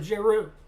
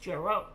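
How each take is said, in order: First: The name is said with a French-sounding pronunciation. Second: The name sounds like the English word zero. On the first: The speaker calls it right. "Sounds French" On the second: The speaker calls it wrong. "I've been saying it wrong"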